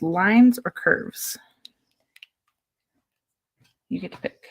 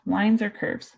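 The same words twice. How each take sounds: First: Whispering. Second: Said in the usual way. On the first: Real, not acted. Offering child a choice, whispered.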